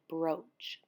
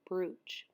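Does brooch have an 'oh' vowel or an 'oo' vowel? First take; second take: oh; oo. First: The vowel sounds like 'oh'. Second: The vowel sounds like 'oo'. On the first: The speaker calls it right. "but you pronounce it brooch" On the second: The speaker calls it wrong. "I was saying brooch"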